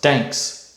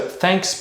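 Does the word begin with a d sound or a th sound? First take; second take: d; th. First: The word begins with a d sound. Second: The word begins with a soft th sound. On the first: The speaker calls it wrong. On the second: The speaker calls it right.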